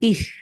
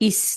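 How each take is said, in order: First: The consonant is a soft th sound. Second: The consonant is a hissing s sound. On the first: The speaker calls it right. "জিভ বের করতে হবে" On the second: The speaker calls it wrong. "ইস না"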